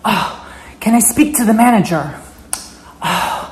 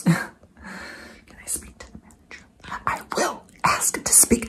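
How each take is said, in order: First: Higher voiced entitled Karen demand. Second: Breathy Karen whisper asking for the manager. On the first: Karen demanding to speak to the manager, higher and haughty. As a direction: ask like an entitled customer. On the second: Acted. Karen whispering her demand to see the manager. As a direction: hiss it like an entitled Karen plotting a complaint. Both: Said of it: "the Karen".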